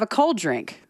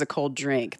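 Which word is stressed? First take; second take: cold; drink. First: The word cold carries the main stress. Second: The word drink carries the main stress. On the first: The drink is alcoholic. "you put the emphasis on cold" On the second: The drink is an ordinary soft drink. "versus a cold drink"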